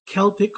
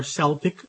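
First: "Celtic" said KEL-tik; hard K. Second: "Celtic" said SEL-tik; soft S. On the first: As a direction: sound the C of "Celtic" as K. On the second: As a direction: sound the C of "Celtic" as S. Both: Shown as a demonstration. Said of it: "We should be able to use both".

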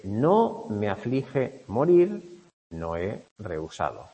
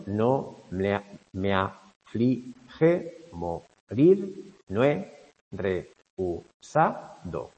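First: Said in the usual way. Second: Very slow scansion, stretching "morir" and "rehusado"; slow metrical reading marking each stressed syllable; scanning the accents. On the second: Shown as a demonstration. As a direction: draw out "me aflige morir" syllable by syllable, leaning on "morir", then drag "rehusado". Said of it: "Aquí tenéis los acentos".

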